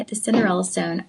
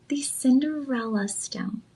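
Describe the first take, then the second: First: Said in the usual way. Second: Slow, soft, hushed unveiling of the name; dramatic reveal. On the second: Shown as a demonstration. Host teasing the ring's name to her viewers, slow and hushed. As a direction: let the name land slowly and quietly, like a secret. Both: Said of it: "what I call".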